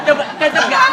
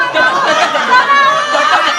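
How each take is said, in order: First: Said in the usual way. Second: Much higher and louder coba cocok gak; high excited call. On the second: Acted.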